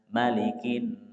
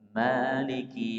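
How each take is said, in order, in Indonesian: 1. Vokal pertama dibaca pendek. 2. Vokal pertama dibaca panjang. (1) "malikinya pendek" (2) "maliki itu panjang"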